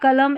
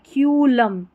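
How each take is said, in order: First: The first syllable is said as kuh. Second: The first syllable is said as kyoo. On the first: The speaker calls it wrong. "कुलम या कलम ऐसे नहीं पढ़ना है" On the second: The speaker calls it right. "यहाँ पर क्यू पढ़ा गया है"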